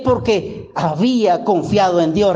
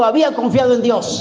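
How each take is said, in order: First: Said in the usual way. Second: Había confiado en Dios said quicker, as a call for the church to echo; repeat after me. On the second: Shown as a demonstration. Preacher leading the congregation to repeat the verse, brisk call. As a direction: lead the phrase briskly so they can answer. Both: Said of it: "Repite conmigo".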